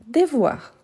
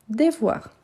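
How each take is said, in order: First: Said in the usual way. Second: Devoir said clearly, each syllable even; teacher's model of devoir. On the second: Shown as a demonstration. Teacher models Devoir to a French learner. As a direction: repeat Devoir for the class to copy.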